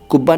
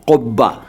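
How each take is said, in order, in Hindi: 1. यह सादे k ध्वनि से शुरू होता है। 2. यह गहरी गले वाली q ध्वनि से शुरू होता है। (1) "कुब्बा नहीं"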